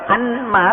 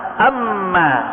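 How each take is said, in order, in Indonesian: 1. Bunyi n diucapkan terpisah sebelum m. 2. Bunyi n menyatu menjadi bunyi m yang dobel. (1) "Bukan dibaca anma" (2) "tapi amma"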